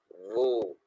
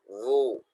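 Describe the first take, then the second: The two takes are said the same way.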